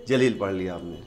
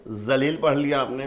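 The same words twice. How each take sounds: First: جلیل begun with a j sound, "jaleel"; jeem pronunciation. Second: ذلیل begun with a plain buzzing z, "zaleel"; ze pronunciation. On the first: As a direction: read جلیل with jeem, pitched lower. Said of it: "جیم سے". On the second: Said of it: "زے سے". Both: Shown as a demonstration.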